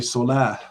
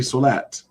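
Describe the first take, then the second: First: The word ends with an H sound. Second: The word ends with a T sound. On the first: "to say this letter as an H, to just say solah" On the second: "which is why we say solat"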